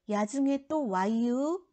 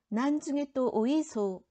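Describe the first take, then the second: First: It is spoken in the Chungcheong dialect. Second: It is spoken in the Gyeongsang dialect. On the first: "충청도" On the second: "경상도"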